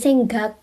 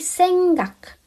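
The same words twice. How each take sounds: First: The final consonant sounds like g. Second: The final consonant sounds like k. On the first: The speaker calls it wrong. "bukan senggak" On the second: The speaker calls it right. "Kalau di akhir dia dibacanya K"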